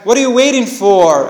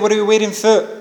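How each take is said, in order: First: The final 'for' is said in its full form. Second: The final 'for' is said in its reduced form. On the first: The speaker calls it right. "you should always use the strong form" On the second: The speaker calls it wrong. "I cannot say what are you waiting for. It sounds weird"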